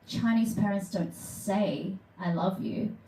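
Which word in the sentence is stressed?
say. The stress falls on the word say. They care but express it without words. "okay, these people aren't monsters. They just don't say it"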